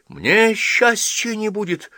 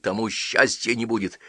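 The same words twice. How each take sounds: First: Put-on high, slow, loud hurt child's question. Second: Said in the usual way. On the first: A narrator's reading. Girl asks the old priest about her own happiness, hurt. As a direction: ask it wounded, drawn out. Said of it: "обиженно спросила Ася". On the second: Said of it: "с той же улыбкой сказал Тихон".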